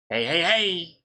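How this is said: It imitates Krusty the Clown's voice.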